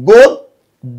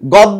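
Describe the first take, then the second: First: The first vowel is a closed 'o' sound. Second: The first vowel is an open 'aw' sound. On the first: The speaker calls it right. "আদ্য অ এর উচ্চারণটা ও এ ও কারের মতো হয়ে যাবে" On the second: The speaker calls it wrong. "আমরা কখনো কেউ গদ্য বলবো না"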